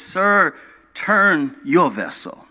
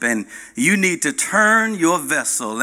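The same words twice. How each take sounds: First: Slow, calm, unbothered answer; calm reply. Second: Commanding captain ordering the turn; mild stern command; captain's order. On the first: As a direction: say it evenly, no heat. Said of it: "he calmly hears a voice back". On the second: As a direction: tell them firmly to turn the vessel. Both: Acted.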